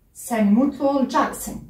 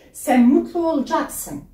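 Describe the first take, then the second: First: The last word is shortened in casual speech. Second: The last word is shortened in casual speech.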